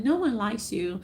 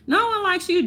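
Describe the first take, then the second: First: Said in the usual way. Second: No pitched much higher and louder, like a playground jab; louder taunt. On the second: Retold or imitated. Mimicking critics, jeering No louder at the comic. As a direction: jeer the word No up high. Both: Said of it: "so they can feel like".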